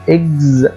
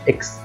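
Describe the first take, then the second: First: The syllable ends in a gz sound. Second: The syllable ends in a ks sound. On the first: The speaker calls it right. "قلت اكز" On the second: The speaker calls it wrong. "ما قلتهاش اكس"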